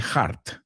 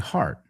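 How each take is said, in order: First: The first sound is harsh and forceful. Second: The first sound is soft and breathy. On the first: The speaker calls it wrong. "don't say heart" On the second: The speaker calls it right. "Say heart, heart, like mucho más suave"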